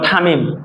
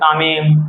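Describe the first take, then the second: First: The name starts with a hard aspirated t. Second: The name starts with a soft dental t. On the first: The speaker calls it wrong. "বিদেশিরা ঠয় বলে, যেমন থামিম" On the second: The speaker calls it right. "সাধারণত তাকে ত বলা হয়"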